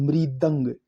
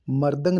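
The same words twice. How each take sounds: First: मृदंग said "mridang"; correct pronunciation. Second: मर्दंग said "mardang"; wrong pronunciation. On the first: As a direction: start मृदंग with a clear "mri". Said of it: "ये शुद्ध है". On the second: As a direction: say मर्दंग with "mar". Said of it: "मर्दंग नहीं". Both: Shown as a demonstration.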